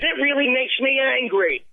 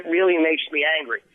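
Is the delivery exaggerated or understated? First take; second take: exaggerated; understated. First: It is said with heavy, exaggerated emotion. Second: It is said with restrained, understated emotion. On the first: The speaker does the emotional work for the audience. The speaker calls it wrong. "I don't have to go" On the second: The audience is left to supply the emotion. The speaker calls it right. "the words are the same if I say"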